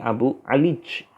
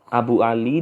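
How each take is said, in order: First: The name ends with a j sound. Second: The name ends with a y sound. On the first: This is the Aja'ajah dialect form. "karena ya diganti menjadi jim" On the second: This is the standard form. "Abu Ali dibaca menjadi Abu Alij"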